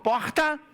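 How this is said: It is said in a carioca accent.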